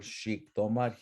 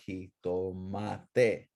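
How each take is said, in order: First: Xictomat as shik-TO-mat; old SH form. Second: Slow jitomate, hee-to-MA-te; modern J form. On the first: Teacher shows class this word, SH form. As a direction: open Xictomat with sh, end on the consonant. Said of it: "let's look at this word". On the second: Teacher shows class the changed word, J form. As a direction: stretch jitomate with h onset and a final te. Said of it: "You change the L to an E". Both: Shown as a demonstration.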